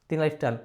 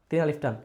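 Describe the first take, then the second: No difference in how they are said.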